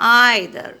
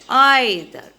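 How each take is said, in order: The two takes are said the same way.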